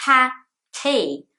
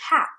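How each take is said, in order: First: "Happy" split into two loud, high beats, HA and PEE; two syllables. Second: "hap" cut off at the P, no final ee; one-syllable hap. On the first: Teacher shows English syllables, "Happy" split in two. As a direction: break "Happy" apart at the syllables. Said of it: "Two syllables in English". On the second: Teacher mimics Brazilian learners' mistake, clipped one-syllable "hap". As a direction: drop the end of happy, just "hap". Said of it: "Brazilians a lot of the time would say hap". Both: Shown as a demonstration.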